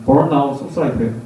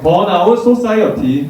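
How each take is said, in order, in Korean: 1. 미국식으로 혀를 굴리는 억양으로 말해요. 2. 평범한 한국식 억양으로 말해요. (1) "굴릴 필요 없어요" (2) "그냥 토종 발음을 할게요"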